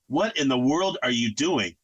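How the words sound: It is said in a calm, gentle tone.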